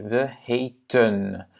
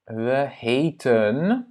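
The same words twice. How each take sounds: First: Very slow, careful we heten; Dutch model word. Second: Slow, drawn-out Dutch we heten; teacher models we heten slowly; Dutch model word. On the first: Teacher repeats Dutch word for students, slow and careful. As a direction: spell out we heten slowly, syllable by syllable. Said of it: "on prononce ces deux-là de la même manière". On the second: Teacher shows students Dutch past tense, slow model word. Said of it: "ce sera nous nous appelions". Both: Shown as a demonstration.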